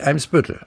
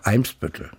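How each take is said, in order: First: The stress is on the second syllable. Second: The stress is on the first syllable. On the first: The speaker calls it wrong. "Nicht Eimsbüttel" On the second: The speaker calls it right. "im Norddeutschen eigentlich auf der ersten Silbe betont"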